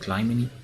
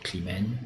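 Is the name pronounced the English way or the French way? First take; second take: English; French. First: The name is pronounced the English way. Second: The name is pronounced the French way. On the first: "I like the possible English pronunci- pronunciation" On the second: "in France, we, we would say Climene"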